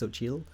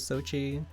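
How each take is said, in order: First: The name ends with an L sound. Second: The name ends without an L sound. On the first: "has like the L at the end" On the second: "in interviews she's pronounced as"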